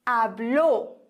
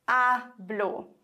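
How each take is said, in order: First: The stress is on the last syllable. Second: The stress is on the first syllable.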